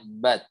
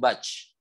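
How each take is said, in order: First: The final t is released with a light breath. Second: The final t bursts out with too much breath. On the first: The speaker calls it right. "yang benarnya" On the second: The speaker calls it wrong. "mengalirkan aliran udaranya berlebihan"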